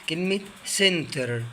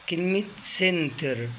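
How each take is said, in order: The two takes are said the same way.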